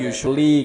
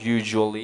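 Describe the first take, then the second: First: The middle consonant is not a buzzing zh. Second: The middle consonant is a buzzing zh. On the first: The speaker calls it wrong. "common mistake-nya dari suara ini" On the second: The speaker calls it right. "Yang proper kan kita pakai yang ini toh, wajibnya harus"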